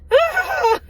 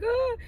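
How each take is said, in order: First: Loud, very high mock wail; high exasperated cry, hammed up; frustrated crying, mimicked. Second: Soft, high mock whimper; a small high pretend sob; sad crying, mimicked. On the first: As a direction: act out a burst of frustrated tears. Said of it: "I'm crying frustrated tears". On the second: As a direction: imitate someone crying pitifully. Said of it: "I'm not crying like". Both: Shown as a demonstration.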